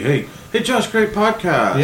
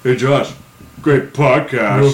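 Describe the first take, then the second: First: It sounds sincerely excited about the podcast. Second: It sounds sarcastic, mocking the podcast.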